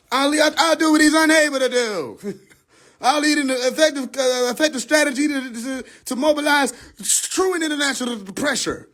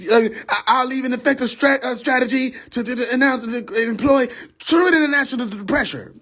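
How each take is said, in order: First: Hammed-up stump speech, higher and shouted; mock politician speech. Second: Mock politician speech. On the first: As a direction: belt the promise like a podium pledge. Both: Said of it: "I sound stupid".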